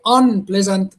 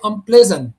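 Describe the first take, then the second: First: The stress is on the first syllable. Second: The stress is on the second syllable. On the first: The speaker calls it wrong. "I don't say unpleasant" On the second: The speaker calls it right. "The second one is the stressed one"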